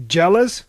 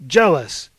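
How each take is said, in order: First: "Jealous" loud and rising high at the end; "Jealous" with a sharp upward, offended lift; incredulous question. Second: "Jealous" loud, falling in pitch at the end; "Jealous" punched with a decisive downward tune; firm echo. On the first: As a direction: fling "Jealous" back as a question. Athena throws the word back. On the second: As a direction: throw "Jealous" back as a flat-out statement. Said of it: "echoed Aphrodite". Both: A narrator's reading.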